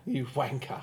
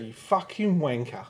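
First: It is said softly and playfully, as among friends. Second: It is said aggressively, as if starting a fight.

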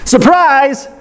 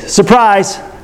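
First: It is said excitedly, with more energy. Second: It is said flatly, with little energy.

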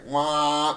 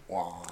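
First: It is loud and blaring. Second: It is softer and toned down.

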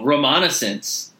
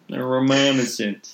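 First: It is said in a normal voice. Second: It is said in a nasal voice.

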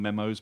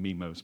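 First: The first vowel is short, like in 'men'. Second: The first vowel is long, like in 'me'. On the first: This is how other people say it. "some people call them memos" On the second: This is the speaker's own way of saying it. "I call them memos"

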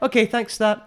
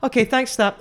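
First: It is said lower, quieter and flatter. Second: It is said higher, louder and energetically.

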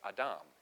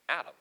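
First: The word is said with a Hebrew pronunciation. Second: The word is said with an English pronunciation. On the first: "When you go back to the Hebrew, the word for man is Adam" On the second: "if we were going to say it in an English way"

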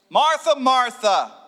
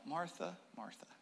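First: It is said at normal loudness. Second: It is said quietly and calmly.

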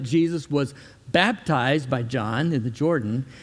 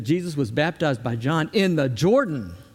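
First: The main stress does not fall on Jordan. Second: The main stress falls on the word Jordan. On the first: The speaker calls it wrong. "It's not that" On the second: The speaker calls it right. "It's that ... That's where it's important"

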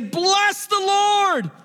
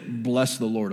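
First: It is said in a joyful, excited way. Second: It is said in a flat, unexcited way. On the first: The speaker calls it right. "You say bless the Lord, O my soul ... This guy's happy" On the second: The speaker calls it wrong. "you don't say bless the Lord, O my soul"

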